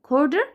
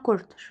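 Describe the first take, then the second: First: The middle consonant sounds like a soft d. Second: The middle consonant sounds like a clear t. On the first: "ولو انت متعرفش تجيب الدي quarter" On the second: "قولها quarter"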